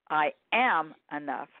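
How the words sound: The stress falls on the word am.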